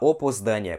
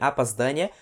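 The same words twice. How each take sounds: First: The first two vowels sound like O. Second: The first two vowels sound like A. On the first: This is how a learner might say it. The speaker calls it wrong. "você nunca vai falar" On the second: This is how native speakers say it. The speaker calls it right. "Se você sempre ouvir os russos falarem"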